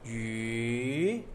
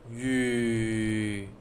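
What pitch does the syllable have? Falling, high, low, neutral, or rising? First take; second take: rising; low. First: The pitch rises from low to high. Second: The pitch stays low. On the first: "Second tone is from low to high" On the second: "Third is low tone"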